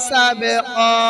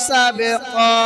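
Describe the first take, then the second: No difference in how they are said.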